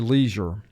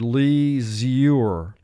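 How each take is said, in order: First: It is said naturally, as in everyday speech. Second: It is said slowly, with an exaggerated first syllable. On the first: This is how the word is normally said. "And for pronunciation, we would say leisure" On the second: This version helps with spelling the word. "For spelling, pronounce this word leisure"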